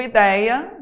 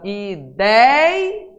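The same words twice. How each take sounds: First: Said in the usual way. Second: "Ideia" broken as "i... déi... a"; "Ideia" syllable by syllable, middle held long; split into syllables. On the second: Shown as a demonstration. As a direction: stretch a rising "dei" in "Ideia", then a separate "a". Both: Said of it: "vou separar aqui pra você ver".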